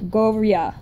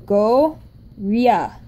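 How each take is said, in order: First: "go ria" run together with no gap; slurred together. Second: "go ria" slowly, with a gap between go and ria; syllable by syllable. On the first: Teacher shows how the sounds join, "go ria" slurred together. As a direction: slur the consonant into the vowel in "go ria". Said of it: "you kind of slur together". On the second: Teacher puts the sounds together one by one, "go ria" syllable by syllable. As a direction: split "go ria" into two separate parts. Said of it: "So together it's". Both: Shown as a demonstration.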